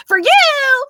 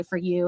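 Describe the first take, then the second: First: Very high, loud catchphrase voice; exaggerated high-pitched imitation; viral audio impersonation. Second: Said in the usual way. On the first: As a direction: fire it back high and loud, mimicking a viral clip. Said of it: "I'll just instinctually be like". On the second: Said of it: "come into my lives and say".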